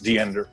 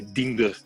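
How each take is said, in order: First: The name is said with an American accent. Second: The name is said with a Dutch accent. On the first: "U S English, American English, which uh, which I think is Diender" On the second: "with a thick Dutch accent, you would probably say Diender"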